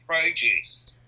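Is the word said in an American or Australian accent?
American. The word is said in an American accent. The speaker calls it right. "it would have to be"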